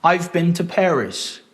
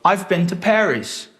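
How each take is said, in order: Both takes have the same delivery.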